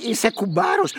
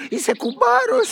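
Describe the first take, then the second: First: Said in the usual way. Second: Jumps high on κουμπάρος with a falling end; childlike, excited insistence; κουμπάρος sung out high then falling. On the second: Acted. Insists he is best man.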